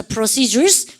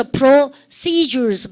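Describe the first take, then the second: First: Said in the usual way. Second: PROCEDURES broken slowly into pro-cee-dures; syllable-by-syllable model pronunciation. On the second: Shown as a demonstration. Teacher showing the class the word procedures, PROCEDURES drawn out syllable by syllable. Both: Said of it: "발음을 까다면서".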